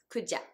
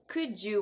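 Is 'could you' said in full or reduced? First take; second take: reduced; full. First: The two words blend into 'kuja'. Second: The two words are said in full, separately.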